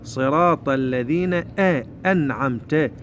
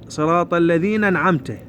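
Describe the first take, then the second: First: Slow الذين, break, then a clear "a" on أنعمت; careful recited model of أنعمت; sounded hamza. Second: الذين أنعمت run together as "alladhinan'amta"; imitating the error, no break before أنعمت; skipped hamza. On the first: Shown as a demonstration. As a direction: separate الذين from أنعمت with a glottal start. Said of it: "هاي الهمزة لازم نطلعها". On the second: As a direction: slide straight onto the n of أنعمت. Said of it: "رأسًا عن النون".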